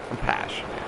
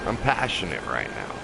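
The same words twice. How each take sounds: First: Breathy whisper, much lower and softer. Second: Said in the usual way. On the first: Real, not acted. Streamer repeating to viewers that he is passionate, whispered. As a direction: drop it to a whisper.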